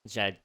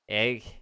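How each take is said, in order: First: The word begins with a J sound. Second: The word begins with a vowel sound.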